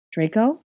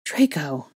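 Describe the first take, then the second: First: Higher, questioning call. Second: Name said in breathless relief, falling. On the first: Lost girl calling for Draco in fog, raised questioning call. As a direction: call his name, searching for him. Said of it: "I called". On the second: Girl spotting Draco as her fear breaks, breathless. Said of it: "I said breathlessly". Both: A narrator's reading.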